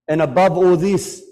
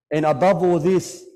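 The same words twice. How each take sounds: First: Loud, rising wail of grief; building lament. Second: Said in the usual way. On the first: Real, not acted. Preacher to congregation, loud mourning cry. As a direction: lift the voice in grief.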